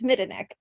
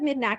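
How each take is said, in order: First: The surname is pronounced as Midenik. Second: The surname is pronounced as Midnack. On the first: The speaker calls it right. "It's Midenik" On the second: The speaker calls it wrong. "I've always said Midnack, and that's not right"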